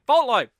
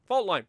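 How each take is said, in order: First: Louder, excited Fault line!; remembering the map, loud and excited; sudden recognition. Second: Said in the usual way. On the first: Real, not acted. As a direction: blurt out Fault line as it clicks. Recognition shout.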